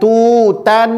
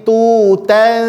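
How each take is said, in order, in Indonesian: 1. Dengung hidung tertutup oleh lidah. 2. Dengung hidung terbuka, lidah dijauhkan. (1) "jangan ditempelkan lidahnya ke langit-langit atas. Jangan tutan" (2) "Renggangkan posisi lidahnya dari langit-langit atas"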